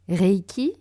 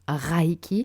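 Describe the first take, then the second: First: The first syllable sounds like 'ray'. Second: The first syllable sounds like 'rye'. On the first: The speaker calls it right. "Reiki et non Raiki" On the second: The speaker calls it wrong. "et non Raiki"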